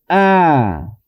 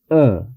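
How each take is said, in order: First: The vowel is an open, tense ah sound. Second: The vowel is a lax, neutral uh sound. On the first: "Si la A en español digo de esta forma" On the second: "si yo pronuncio esta A sin mover o sin hacer ningún esfuerzo"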